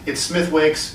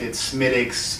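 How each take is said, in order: First: The name is sounded fully, as it is spelled. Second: The name is sounded in a shortened, clipped form. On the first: "I can't help but call it Smithwick because that's how it's spelled" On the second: "depending on like regional dialect"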